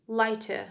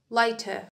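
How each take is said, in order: First: It is said in a British accent. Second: It is said in a British accent.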